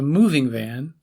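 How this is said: The stress falls on the first word. The van is used for moving possessions. "Stressing the first word of the pair conveys a different relationship"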